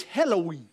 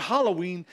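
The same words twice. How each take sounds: First: "Halloween" said as HELL-oh-ween; Hell-o-ween pun. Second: Said in the usual way. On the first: Shown as a demonstration. Preacher renames the holiday for his church, "Halloween" as HELL-oh-ween. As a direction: make the first syllable of "Halloween" the word "hell". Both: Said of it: "put a new name on it".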